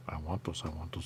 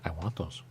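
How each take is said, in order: First: "I want those." whispered, unvoiced and soft. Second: Said in the usual way. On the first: Shown as a demonstration. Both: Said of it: "repeated as whisper".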